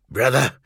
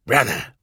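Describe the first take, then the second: First: Grate it out again; harsh grating voice. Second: Harsh grating voice. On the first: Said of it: "Narek repeated". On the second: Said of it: "voice was harsh and grating". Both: Acted.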